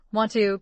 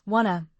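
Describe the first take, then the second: First: Said in the usual way. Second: "wanna", want and to run together without the t; linked, reduced form. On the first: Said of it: "want to becomes wanna". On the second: Shown as a demonstration. Teacher showing how want to gets reduced, linked form. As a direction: say "wanna" as one linked word. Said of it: "Function words get linked and reduced".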